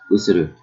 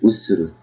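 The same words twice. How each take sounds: First: All syllables are even, with no stress. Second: One syllable is stressed more than the others. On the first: The speaker calls it right. "We don't stress in Japanese" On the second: The speaker calls it wrong. "not usuru"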